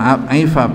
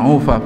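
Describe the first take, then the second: First: The word begins with an ai vowel. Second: The word begins with a u vowel. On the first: "bukan aifaf" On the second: "bukan ufaf"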